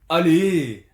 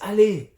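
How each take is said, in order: First: It sounds annoyed and irritated. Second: It sounds encouraging and cheering.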